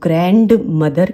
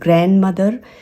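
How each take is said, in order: First: The d in grand is clearly pronounced. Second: The d in grand is not pronounced. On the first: The speaker calls it wrong. "मैंने बहुत लोगों को सुना है" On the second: The speaker calls it right. "क्योंकि डी इसमें silent होता है"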